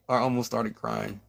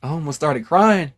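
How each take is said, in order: First: Much softer, almost to herself; quietly admitting it again; softer, sheepish repeat. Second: Said in the usual way. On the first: Real, not acted.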